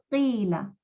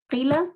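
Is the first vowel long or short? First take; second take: long; short. First: The first vowel is stretched long. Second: The first vowel is short. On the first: The speaker calls it right. "la kasra la tengamos que estirar dos veces" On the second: The speaker calls it wrong. "En lugar de decir qila"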